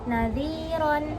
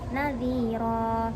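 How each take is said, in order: First: The word ends with an n sound. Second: The word ends on a long vowel. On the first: The word is read without stopping on it. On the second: The reader stops on this word.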